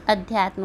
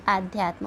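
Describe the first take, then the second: First: अध्यात्म with a short opening a, ad-hyaatm; अध्यात्म, short first vowel, clearly shown as the right form; correct spelling said out. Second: आध्यात्म with a long opening aa, aadhyaatm; आध्यात्म said with a long aa as the wrong spelling; wrong form shown. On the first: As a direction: say अध्यात्म starting on a short a, not a long aa. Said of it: "न कि आध्यात्म होता है". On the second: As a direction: stretch the first vowel of आध्यात्म to show the error. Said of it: "क्योंकि अध्यात्म होता है". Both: Shown as a demonstration.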